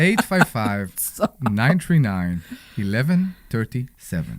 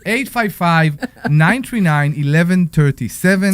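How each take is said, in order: First: It is said in a put-on sexy voice. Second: It is said in his plain voice.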